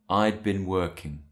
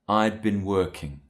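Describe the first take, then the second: First: The word had is contracted to I'd. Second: The same.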